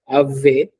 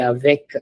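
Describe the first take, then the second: First: The final k sound is left silent. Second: The final k sound is clearly pronounced. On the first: The speaker calls it wrong. "we don't say it as ave" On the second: The speaker calls it right. "We say avec"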